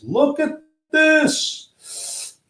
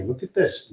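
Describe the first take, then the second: First: "Look at this." very high and very slow; squeaky drawn-out look at this. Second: Said in the usual way. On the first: Pretend. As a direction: stretch "Look at this." into a squeaky marvel.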